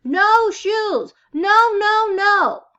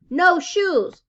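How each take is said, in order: First: Put-on high, loud toddler scream; a child in full tantrum. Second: Put-on higher, louder child's refusal; a little boy saying no; stubborn toddler. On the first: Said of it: "He screamed".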